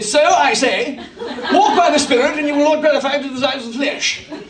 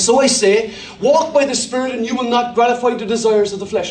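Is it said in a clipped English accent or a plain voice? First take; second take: clipped English; plain voice. First: It is read in a clipped English accent. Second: It is read in his ordinary voice.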